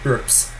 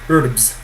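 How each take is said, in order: First: The consonant before the s is a voiceless p. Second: The consonant before the s is a voiced b. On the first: The speaker calls it right. "but it's actually herbs" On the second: The speaker calls it wrong. "It is spelt as if it were pronounced herbs"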